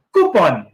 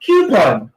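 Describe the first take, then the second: First: Coupon said as "kupon", flat Filipino vowels; mispronouncing coupon on purpose; wrong pronunciation. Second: Coupon said as "KYU-pon"; correct pronunciation. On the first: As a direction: say coupon as "KU-pon". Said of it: "Ang sabi mo". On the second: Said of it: "repeat after me". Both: Shown as a demonstration.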